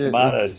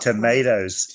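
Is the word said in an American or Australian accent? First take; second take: Australian; American. First: The word is said in an Australian accent. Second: The word is said in an American accent. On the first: This is how people here say it. "tomatoes is what we eat down here" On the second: This is how people elsewhere say it. "these Americans, they they eat tomatoes"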